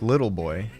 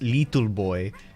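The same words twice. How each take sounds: First: The vowel in 'little' is the plain English short i. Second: The vowel in 'little' sounds like 'ee', Spanish-style. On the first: "instead of like little boy" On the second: "it says little boy"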